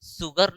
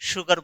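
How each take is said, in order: First: The word begins with a plain s sound. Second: The word begins with an sh sound. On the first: The speaker calls it wrong. "मैं सुगर नहीं बोल रहा" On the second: The speaker calls it right. "मैं शुगर बोल रहा हूं"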